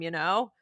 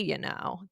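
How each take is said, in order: First: It sounds tentative, as if seeking agreement. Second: It sounds sassy and pointed, with attitude. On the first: The speaker is checking that the listener agrees. "it's added in at the end to almost seek approval" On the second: The speaker is scolding or showing impatience. "Here's one more sassy one"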